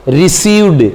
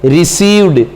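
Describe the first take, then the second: First: रिसीव्ड with a voiced d at the end. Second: रिसीव्ड repeated, ending on a voiced d. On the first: Teacher to students, modelling the ed ending: voiced d. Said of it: "ये word आपका". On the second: Teacher repeating the answer for students: voiced d ending. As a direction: say रिसीव्ड again with a clear voiced d. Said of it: "क्या है?". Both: Shown as a demonstration.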